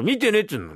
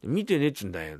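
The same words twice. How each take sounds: First: Higher, exasperated denial; raised voice. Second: Said in the usual way. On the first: Acted. Husband insisting to his wife he had no dream, raised voice. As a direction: raise your voice to shut down the questions. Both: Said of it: "またそうやって声を大きくしてさ".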